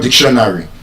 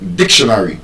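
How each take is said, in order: First: The stress is not on the first syllable. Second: The stress is on the first syllable. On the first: The speaker calls it wrong. "it's not" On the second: The speaker calls it right. "That word will be stressed on the first syllable"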